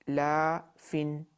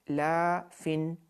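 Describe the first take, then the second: The two takes are said the same way.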